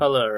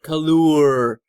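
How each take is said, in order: First: The second vowel is short and reduced. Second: The second vowel is fully pronounced, like 'you'. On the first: The speaker calls it right. "you don't have to. You know, it's just" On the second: The speaker calls it wrong. "they really want to pronounce it color. They want to really pronounce that U"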